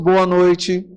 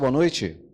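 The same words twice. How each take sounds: First: It is said loudly, with lively energy. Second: It is said flatly, with little energy. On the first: The speaker calls it right. "Então melhoremos isso" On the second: The speaker calls it wrong. "esse boa noite dá para melhorar"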